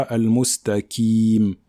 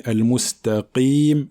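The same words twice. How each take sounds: First: Slow "al-mustaqim" with plain K for Q; Kaf replacing Qaf. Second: Weight the Q of "al-mustaqim" at the back of the mouth; emphatic Qaf. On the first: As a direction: lighten the Q of "al-mustaqim" into a K. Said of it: "et pas". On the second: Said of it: "emphatique. Donc on dit". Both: Shown as a demonstration.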